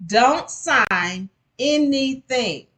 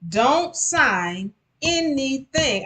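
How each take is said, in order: First: Slow, loud, high stressed warning; don't sign anything, slowly. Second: Slow, high repeated warning on Don't; advising listeners to never sign. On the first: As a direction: drag out each word as a warning. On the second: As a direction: press the warning home again. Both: Shown as a demonstration. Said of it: "make sure you don't do".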